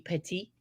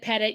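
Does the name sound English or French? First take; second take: French; English. First: The name is said the French way. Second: The name is said the plain English way. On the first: This is how it would be said in French. "The French pronunciation, it would be petit" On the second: This is how the man himself says it. "he pronounces it Pettit"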